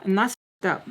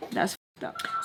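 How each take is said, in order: First: Said in the usual way. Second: Breathy whispered echo of That's fucked up; whispered repeat. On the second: Real, not acted.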